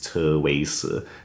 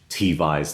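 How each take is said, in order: First: The name is read with a Chinese pronunciation. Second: The name is read with an English pronunciation. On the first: "That Chinese is Teweise" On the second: "the English T-Vise"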